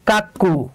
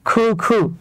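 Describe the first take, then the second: First: The first vowel sounds like 'a' in 'father'. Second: The first vowel sounds like 'oo' in 'food'. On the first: The speaker calls it wrong. "আমাদেরকে শেখানো হয়েছে কাক্কু" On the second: The speaker calls it right. "মজার ব্যাপার হচ্ছে এইটার উচ্চারণ হলো খু খু"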